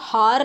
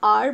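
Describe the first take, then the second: First: The word begins with an h sound. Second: The word begins with a vowel sound. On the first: The speaker calls it wrong. "हार नहीं बोलते हो" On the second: The speaker calls it right. "इसको आप आर बोलते हो"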